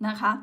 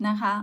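The two takes are said the same way.

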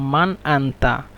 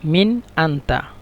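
First: The first word is said with an a vowel. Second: The first word is said with an i vowel. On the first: This is the standard form. "মান শুদ্ধ ভাষা" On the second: This is the Egyptian regional form. "মিশরের আঞ্চলিক ভাষায় বলে মিন"

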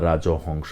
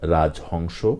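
First: An 'o' vowel is heard after 'raj'. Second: No vowel is heard after 'raj'. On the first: The speaker calls it wrong. "রাজহংস হবে না" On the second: The speaker calls it right. "হবে রাজপুত্র, রাজহংস"

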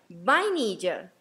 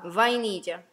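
First: It starts with a two-lip B sound. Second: It starts with a lip-teeth V sound. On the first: "Pero nosotros la pronunciamos" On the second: "con V corta y por eso estoy, fala- por eso estoy hablando va"

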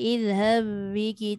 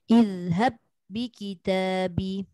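First: The doubled b is pressed only lightly. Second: The doubled b is pressed firmly and held. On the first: The speaker calls it wrong. "Jangan sikit aje. ... Macam nak tak nak aje kan" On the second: The speaker calls it right. "Bagi dia ketat bunyi dia"

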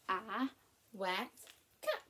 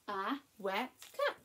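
First: It is said at a slower pace. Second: It is said at a quicker pace.

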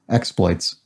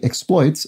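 First: The stress is on the first syllable. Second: The stress is on the second syllable. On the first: It is used as a noun. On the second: It is used as a verb. "a verb"

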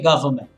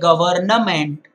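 First: The N in the middle is left silent. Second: The N in the middle is clearly pronounced. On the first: The speaker calls it right. "you say government" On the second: The speaker calls it wrong. "you don't say government"

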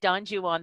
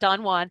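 First: The name is pronounced the English way. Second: The name is not pronounced the English way. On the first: This is the customary form in English literature. The speaker calls it right. "That's the way we say it in English literature" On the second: This is not the customary form in English literature. The speaker calls it wrong. "not Don Juan"

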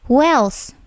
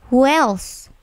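The two takes are said the same way.

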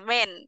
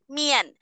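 First: The vowel sounds like 'men'. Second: The vowel sounds like 'mian'. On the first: The speaker calls it wrong. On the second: The speaker calls it right.

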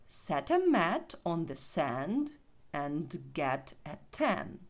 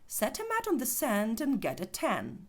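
First: The sentence is said slowly with full words. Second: The sentence is said fast with reduced words. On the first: "спочатку повільно" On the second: "Тепер пробуємо швидше"

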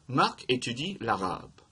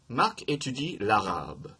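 First: The voice falls at the end. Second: The voice falls at the end.

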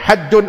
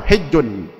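First: The first vowel is an open 'a' sound. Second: The first vowel is a close 'i' sound. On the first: "dua dua cara bacanya, ada dua wajah" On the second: "dua dua cara bacanya, ada dua wajah"

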